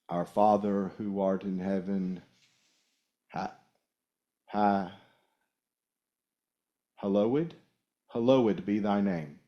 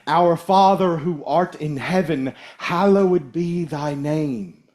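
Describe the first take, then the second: First: It is read haltingly and by rote. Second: It is read smoothly and with meaning.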